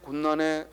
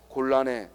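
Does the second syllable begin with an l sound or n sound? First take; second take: n sound; l sound. First: The second syllable begins with an n sound. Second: The second syllable begins with an l sound. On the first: The speaker calls it wrong. "곤난해 곤난해 이렇게 하지 않고" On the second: The speaker calls it right. "곤란해 란으로 쓴다"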